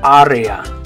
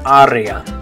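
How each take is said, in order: First: The vowels are clear Spanish a, e, a. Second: The same.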